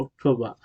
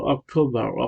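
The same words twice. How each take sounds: First: অক্টোবর as "ok-to-bah", final r silent; British pronunciation. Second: অক্টোবর as "ok-to-barr", final r sounded; American pronunciation. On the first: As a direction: drop the r at the end of অক্টোবর. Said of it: "British উচ্চারণ হলো". (অক্টোবর, শেষের র ছাড়া British উচ্চারণে) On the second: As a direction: pronounce the r ending অক্টোবর. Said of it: "American হলো". (অক্টোবর, র-সহ American উচ্চারণে) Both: Shown as a demonstration.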